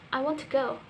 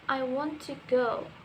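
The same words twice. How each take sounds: First: The word 'to' is weak and unclear. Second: The word 'to' is said fully and clearly. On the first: "when we speak it naturally, it will sound like" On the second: "I have a sentence"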